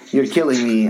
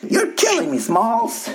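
First: Said in the usual way. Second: Put-on high squeaky kid voice; Sandlot kid impression. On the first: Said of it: "what's the name of the dude in Sandlot". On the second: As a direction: quote the Sandlot kid, pitched way up. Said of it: "the dude in Sandlot".

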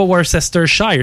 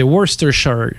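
First: Worcestershire said with every letter, wer-ses-ter-shire; wrong pronunciation. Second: Worcestershire said short, woos-ter-sha; right pronunciation. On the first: Host mocks cohost's all-letters Worcestershire. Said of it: "C'est pas Worcestershire". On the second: Host corrects cohost, saying woos-ter-sha. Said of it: "c'est Worcestershire". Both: Shown as a demonstration.

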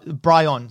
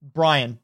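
First: "Brian" said as bry-ON; corrected pronunciation. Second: Said in the usual way. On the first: Shown as a demonstration. Game master correcting the lieutenant's name, "Brian" said as bry-ON. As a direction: give "Brian" a full "on" ending. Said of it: "sorry, B R Y O N". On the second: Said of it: "Ryan or Brian?".

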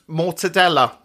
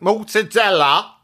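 First: Said in the usual way. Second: Slow, showy Italian pronunciation; Italian accent. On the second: Shown as a demonstration. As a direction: put on a hammed-up Italian accent. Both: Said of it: "that's a beautiful Italian accent".

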